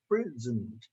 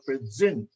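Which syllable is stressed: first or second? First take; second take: first; second. First: The stress is on the first syllable. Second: The stress is on the second syllable. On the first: A gift. "something gift is in the beginning" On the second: Being there in person. "The stress is in the second syllable"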